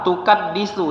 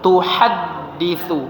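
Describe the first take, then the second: First: The second consonant is a k sound. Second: The second consonant is a light h sound. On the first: The speaker calls it wrong. "berubah jadi ka ... bukan tukat" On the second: The speaker calls it right. "tapi tuhaddisu"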